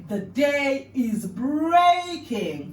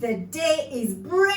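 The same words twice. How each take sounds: First: "The day is breaking" stretched very slowly and loud; slow emphatic demo. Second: "The day is breaking" slow and loud, ending up; slow expressive repeat. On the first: Teacher modelling the phrase very slowly. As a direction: draw out every word of "The day is breaking". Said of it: "some body movements to incorporate". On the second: Student copying the teacher, slow and rising. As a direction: stretch "The day is breaking" and lift the end. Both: Shown as a demonstration.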